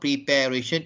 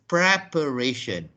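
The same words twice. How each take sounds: First: The second syllable sounds like 'pair'. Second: The second syllable sounds like 'per'. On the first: The speaker calls it wrong. "it's not preparation" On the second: The speaker calls it right. "it is preparation"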